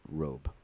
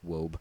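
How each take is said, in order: First: The word begins with a clear R sound. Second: The word begins with a W sound instead.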